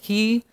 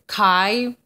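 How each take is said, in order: First: The letter name is said like 'he'. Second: The letter name is said like 'chi'. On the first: This is how the letter is really said. The speaker calls it right. "But it's really he, is how you say it" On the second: This is the ancient or classical way of saying it. The speaker calls it wrong. "In ancient or classical ways of speaking, they'll call it chi. Ugh, gross"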